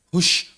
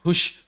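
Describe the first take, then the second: Both takes have the same delivery.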